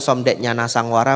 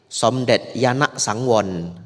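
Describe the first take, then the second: First: The name is said with Indonesian pronunciation. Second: The name is said with Thai pronunciation.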